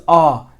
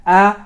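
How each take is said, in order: First: Ah full and round, drawn out; thick fatha. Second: A as a light, open ae as in cat; thin fatha. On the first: Tutor contrasting the two fathas, thick full sound. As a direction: stretch ah out with the mouth full. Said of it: "depending on the letter". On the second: Tutor contrasting the two fathas, thin light sound. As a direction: stretch A out thin and fronted. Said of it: "making sure your fatha sounds correct". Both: Shown as a demonstration.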